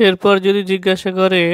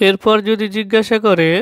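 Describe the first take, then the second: Both takes have the same delivery.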